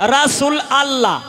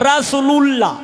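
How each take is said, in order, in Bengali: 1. দ্বিতীয় শব্দটি আলাদাভাবে 'allah' হিসেবে বলা হয়। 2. দুটি শব্দ মসৃণভাবে মিলিয়ে 'lullah' হিসেবে বলা হয়। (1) "অনেকেই কয় রাসূল আল্লাহ" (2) "অনেকেই কয় রাসূলুল্লাহ"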